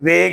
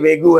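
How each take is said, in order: First: The word ends on the 'g' consonant. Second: The word ends with an added 'oo' vowel. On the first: The speaker calls it right. "वेगू नहीं है बल्कि वेग है" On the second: The speaker calls it wrong. "कभी आप कहें sir ये वेगू है"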